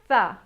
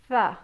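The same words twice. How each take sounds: First: The th sound is only breathy air. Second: The same.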